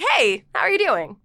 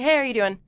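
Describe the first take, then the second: First: It is said animatedly with strong vocal inflection. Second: It is said plainly with little vocal inflection. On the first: The voice must carry the expression. "But with this, I'd have to be like" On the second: The face carries the expression. "if it was just me talking"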